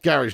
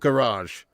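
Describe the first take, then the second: First: The word has a plain English-sounding pronunciation. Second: The word has a French-sounding pronunciation. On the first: The speaker calls it right. "It's pronounced garage" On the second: The speaker calls it wrong. "not garage. ... That sounds super French"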